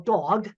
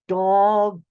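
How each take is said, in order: First: The word is said at normal speed. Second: The word is said slowly with each sound clear. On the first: "they'd go dog" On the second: "really slowing down and enunciating the sounds"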